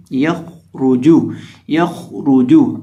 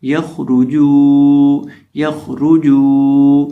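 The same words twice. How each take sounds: First: یخرجو with a heavy خ and ر, short rounded جو; یخرجو said right, جو kept short; correct reading. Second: یخرجو with the ج stretched out, slow and loud; یخرجو said wrong, the جو held far too long; wrong long jeem. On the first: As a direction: read یخرجو slowly, full خ and ر, lips rounded on رو and جو, ج not stretched. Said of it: "خا کو اور را کو دونوں کو موٹا کریں گے". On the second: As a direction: demo the mistake, dragging the ج in یخرجو. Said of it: "اکثر لوگ یہاں جیم کو لمبا کر کے پڑھ دیتے ہیں". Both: Shown as a demonstration.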